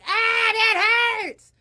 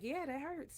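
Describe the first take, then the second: First: It is cried out as if in pain. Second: It is said calmly and casually.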